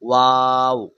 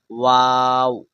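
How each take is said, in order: No difference in how they are said.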